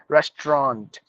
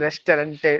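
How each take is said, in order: First: The middle vowels are silent, with fewer syllables. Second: The middle vowels are pronounced as an extra syllable. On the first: The speaker calls it right. "A U in the middle are silent" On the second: The speaker calls it wrong.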